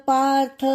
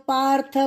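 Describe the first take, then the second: The two takes are said the same way.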